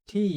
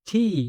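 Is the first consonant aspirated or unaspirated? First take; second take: aspirated; aspirated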